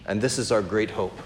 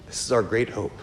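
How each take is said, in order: First: Our stressed, spoken plainly and gently; soft sincere statement with weight on our; stating the hope. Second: Our stressed again, said softer and lower like an afterthought; a near-whispered echo of the first line; hushed echo. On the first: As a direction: say it once, leaning on our. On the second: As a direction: repeat it quietly to let it sink in. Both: Real, not acted.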